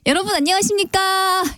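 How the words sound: It is said in a light, everyday voice.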